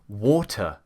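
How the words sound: The middle consonant is a clear T sound. "we say water in England"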